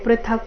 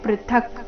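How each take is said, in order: First: The word ends with a final vowel sound. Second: The word ends on a bare consonant. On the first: The speaker calls it wrong. "ಪೃಥಕ ಅಂತ ಇಲ್ಲ" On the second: The speaker calls it right. "ಪೃಥಕ್ ಈ ರೀತಿ"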